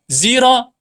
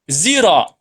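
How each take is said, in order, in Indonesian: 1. Diawali dengan bunyi z. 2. Diawali dengan bunyi z.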